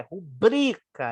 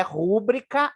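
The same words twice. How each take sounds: First: "rubrica" slow, with a strong middle BRI; correct stress on BRI. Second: "rúbrica" with the first syllable RÚ stressed; wrong stress on RÚ. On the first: Teacher correcting the stress for students, slow emphatic middle syllable BRI. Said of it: "é uma paroxítona". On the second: Teacher showing the mistaken pronunciation, stress moved to first syllable RÚ. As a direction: punch RÚ at the start of "rúbrica". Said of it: "não é rúbrica". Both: Shown as a demonstration.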